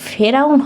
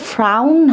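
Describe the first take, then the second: First: A short vowel separates the f and r. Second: The f and r run together without a vowel. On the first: The speaker calls it right. "ফেরাউন হবে" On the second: The speaker calls it wrong. "ফ্রাউন হবে না"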